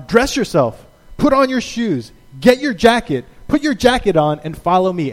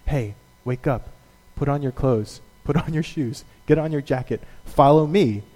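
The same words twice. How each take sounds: First: Raised, step-by-step commands; bossy angel. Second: A parent droning the school routine; tired parent. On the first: Angel ordering a dazed Peter, brisk commands. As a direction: bark each order like a drill. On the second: Parent getting a kid to school, weary mock orders. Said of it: "routine ... get your kid to school". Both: Retold or imitated.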